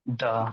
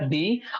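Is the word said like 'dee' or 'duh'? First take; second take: duh; dee. First: The vowel is a short 'uh' sound. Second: The vowel is a long 'ee' sound. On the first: The next word starts with a consonant sound. "अगर वो consonant से कर रहा है तो हो जाएगा क्या?" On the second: The next word starts with a vowel sound. "अगर वो प्रोनाउंस अगर वो है ना वॉवेल से कर रहा है तो वो हो जाएगा"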